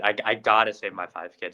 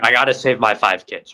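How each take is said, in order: First: Said in the usual way. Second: Put-on loud, urgent cry to save the kids; first take louder and more urgent; desperate dad. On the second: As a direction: push it out hard, a father in panic. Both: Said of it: "He's like".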